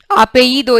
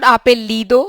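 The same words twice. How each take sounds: First: The double L is sounded like a y. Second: The double L is sounded like an l. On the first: The speaker calls it right. "The double L sound is y" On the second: The speaker calls it wrong. "it's not apellido"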